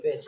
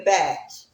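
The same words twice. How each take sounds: First: "bitch" with a short i, as in pitch; intended word. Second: "batch" with a flat a, as in match; mispronounced word. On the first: Shown as a demonstration. Correcting the commenter's misspelling, "bitch" said with a short i. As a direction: say "bitch" the normal way. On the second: Retold or imitated. Mocking a commenter's misspelled insult, "batch" said with a flat a. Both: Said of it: "they meant to call me a bitch".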